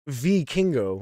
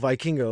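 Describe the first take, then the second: First: It begins with V followed by king. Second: It begins like the English word Viking. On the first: The speaker calls it right. "like it was V and then King" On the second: The speaker calls it wrong. "like it's a Viking"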